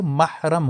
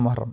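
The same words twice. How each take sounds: First: محرم said as mahram, open a in the first syllable; correct pronunciation. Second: محرم said as muharram, short u in the first syllable; common mispronunciation. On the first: Teacher giving students the correct reading of محرم as mahram. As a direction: correct it to محرم as mah-ram, clearly. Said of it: "یہ محرم نہیں ہوتا، یہ محرم ہوتا ہے". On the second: Teacher demonstrating the common wrong reading of محرم as muharram. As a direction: say محرم the way people wrongly read it, muh-rum. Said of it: "یہاں پر لوگ اکثر پڑھتے ہیں محرم". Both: Shown as a demonstration.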